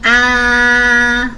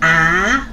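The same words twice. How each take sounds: First: The pitch stays high and level. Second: The pitch rises from middle to high. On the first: "first tone" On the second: "second tone goes up"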